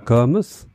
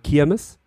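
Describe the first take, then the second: First: Düsseldorf style, with an ö-like first vowel. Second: Duisburg style, with an i first vowel.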